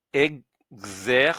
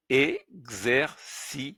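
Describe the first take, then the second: First: Exercice, slow, the final s silent; slow full word. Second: Exercice, very slow, each syllable apart. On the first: Teacher summing up the word Exercice. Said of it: "Donc, je résume". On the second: Teacher slowly assembling the word Exercice. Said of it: "C I, si. C E, ce". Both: Shown as a demonstration.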